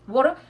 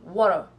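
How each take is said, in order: First: It is said with a British English accent. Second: It is said with an American English accent. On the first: "en anglais britannique, they're going to say water" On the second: "en anglais américain, on dit water"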